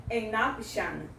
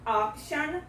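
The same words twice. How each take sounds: First: AN OPTION run together as 'an-noption'; linking sound. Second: Said in the usual way. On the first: Shown as a demonstration. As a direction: glide N straight onto OPTION. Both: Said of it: "vai juntar a pronúncia com a palavra seguinte".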